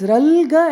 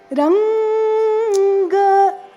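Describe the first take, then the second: First: The middle consonant sounds like an L. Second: The middle consonant is a clear N sound. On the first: The speaker calls it wrong. "it's Ralga and Dalda that we hear" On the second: The speaker calls it right. "It has to be Ranga"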